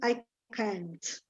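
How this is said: It is said with an American accent. "American English, it's all with a A"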